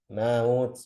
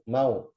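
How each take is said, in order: First: The vowel is stretched out with extra length. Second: The vowel is kept short and direct. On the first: The speaker calls it wrong. "Jangan maut, maut. Itu jadi tamtid namanya" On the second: The speaker calls it right.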